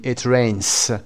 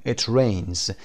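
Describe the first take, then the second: First: "it rains" with a hissed S instead of Z; wrong final S. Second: "It rains" with a voiced Z ending; correct final Z. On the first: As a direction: mispronounce "rains" as "raynss". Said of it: "نمیتونیم بگین". («it rains» با «س» اشتباه در انتها) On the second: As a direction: model "rains" as "raynz", buzzing at the end. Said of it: "شما سعی کنید درست تلفظ بکنید". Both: Shown as a demonstration.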